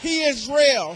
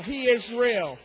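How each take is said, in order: First: He is real shouted out; peak shout. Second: Said in the usual way. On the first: Real, not acted. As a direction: cry it out at the top. Repeated thrice, falling away.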